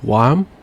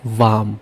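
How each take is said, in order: First: It is pronounced with an English sound. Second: It is pronounced with a German sound. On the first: "you say in English warm" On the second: "but in German you'd say warm"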